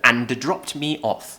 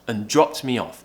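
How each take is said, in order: First: 'And' is pronounced in full. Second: 'And' is reduced to a short 'un' sound. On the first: The speaker calls it wrong. "instead of" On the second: The speaker calls it right. "pronounce it as a kind of un sound"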